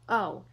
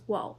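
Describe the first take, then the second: First: It is a bare o vowel without w. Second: It begins with a w sound before o. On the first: "It's actually pronounced as o" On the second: "it's not often pronounced as wo"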